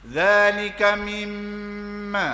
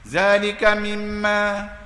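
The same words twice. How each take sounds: First: The m is held with a nasal hum for two beats. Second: The m is short, without a held nasal hum. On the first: The speaker calls it right. "Mimma dengung, gunnah ni ni kena dua harakah, satu dua" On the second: The speaker calls it wrong. "saya baca tak dengung"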